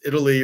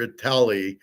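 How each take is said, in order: First: Italy stressed on the first syllable; usual pronunciation. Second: Italy said as "ih-TAL-ee"; deliberate mispronunciation. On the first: He argues pronunciation doesn't matter, saying "Italy" as IT-uh-lee. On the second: He argues pronunciation doesn't matter, saying "Italy" as ih-TAL-ee. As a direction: stress the middle of "Italy", like "tally". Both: Shown as a demonstration. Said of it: "how I pronounce it".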